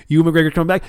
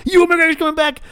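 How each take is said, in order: First: Higher, eager announcement; excited. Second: Much higher, squealing with joy; fan squeal. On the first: Fan repeating the big news, getting excited. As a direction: build the excitement up. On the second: Fan repeating the news, now squealing with excitement. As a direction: let it burst out in a giddy shriek. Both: Retold or imitated. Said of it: "I'm like".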